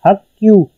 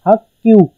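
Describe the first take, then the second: No difference in how they are said.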